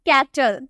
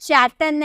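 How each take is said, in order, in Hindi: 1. यह शब्द k ध्वनि से शुरू होता है। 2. यह शब्द ch ध्वनि से शुरू होता है। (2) "चैटल नहीं"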